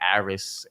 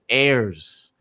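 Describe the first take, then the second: First: The name is said as two syllables, 'Aris'. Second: The name is said as one syllable, 'Airs'. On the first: The speaker calls it wrong. "Some people say Aris" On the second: The speaker calls it right. "It is Airs"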